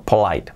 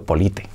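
First: Said in the usual way. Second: "polite" read letter by letter as Spanish "po-li-te"; "polite" in Spanish spelling pronunciation, three syllables; read as written. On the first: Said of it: "Polite es educado". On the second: Shown as a demonstration. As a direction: sound the final E of "polite". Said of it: "escrito polite".

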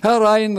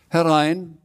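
First: Loud, high, drawn-out call from inside. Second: Higher-pitched, moderate call from inside. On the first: Frau Rotkohl answering a knock, loud high call. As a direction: sing out loudly to the visitor behind the door. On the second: Frau Rotkohl answering a knock, restrained call. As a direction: call a visitor in, not too loud. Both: A narrator's reading. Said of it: "rief sie von drin".

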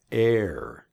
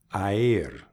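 First: "air" as one smooth vowel, like an E before the r; correct pronunciation. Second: "aer" with the A and the E sounded one after the other; letters pronounced apart. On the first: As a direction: say "air" as a single blended vowel, the right way. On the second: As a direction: split "aer" into two vowels, the wrong way. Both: Shown as a demonstration. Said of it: "No quieres pronunciar las letras por separadas".

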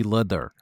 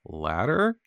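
First: "Ladder" with a foreign vowel, falling; put-on foreign accent. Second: Said in the usual way. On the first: Shown as a demonstration.

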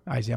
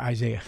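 First: "Isaiah" clipped to two syllables, EYE-zah; "Isaiah" said as a quick, squashed EYE-zah; slip of the tongue. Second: "Isaiah" said in full as eye-ZAY-uh; careful eye-ZAY-uh for "Isaiah"; corrected pronunciation. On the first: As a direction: stumble over "Isaiah" and cut it short. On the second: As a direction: fix the name and give "Isaiah" all three syllables. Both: Shown as a demonstration. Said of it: "I'm sorry, Isaiah".

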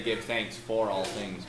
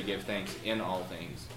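First: "for" picked out and drawn out; stress on FOR. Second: "in" picked out against a lower, softer phrase; stress on IN. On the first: Preacher showing what the text doesn't say, stressing "for". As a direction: lean on the word "for" to set up the contrast. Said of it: "Notice carefully that it does not say". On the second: Preacher showing what the text does say, stressing "in". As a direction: lean on the word "in" as the correction. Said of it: "but it does say". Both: Shown as a demonstration.

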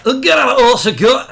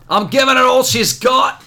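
First: Higher, louder hammed-up starship officer voice; mock Star Trek crewman. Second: Higher, put-on starship officer voice, hammed up; mock Star Trek crewman. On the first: Mocking the writer's dialogue, in a louder hammed-up crewman voice. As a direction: play the crewman again, bigger. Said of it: "Grant Morrison now". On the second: Cohost jokes about the comic's line, in a hammed-up starship officer voice. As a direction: ham up a sci-fi bridge officer. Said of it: "Rest in peace, Chekhov".

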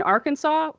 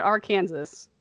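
First: Said in the usual way. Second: "Arkansas" read as spelled, ar-KAN-zas; said like Kansas. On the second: Shown as a demonstration. Puzzled host questions state names, "Arkansas" pronounced ar-KAN-zas. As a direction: rhyme "Arkansas" with Kansas, sounding the final s. Asks why not said like Kansas.

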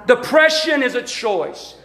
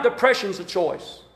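First: "Depression" stressed, slow; slow emphatic repeat. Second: "depression's" low and soft; soft aside. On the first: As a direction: lay weight on "Depression". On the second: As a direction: drop to an undertone. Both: Shown as a demonstration.

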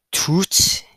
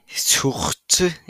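First: High questioning tout, rising; French word attempt. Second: Slow tout, French-style throaty r; French pronunciation. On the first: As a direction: tout said like "toot", pitched high. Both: Shown as a demonstration. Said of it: "is how you say it in French".

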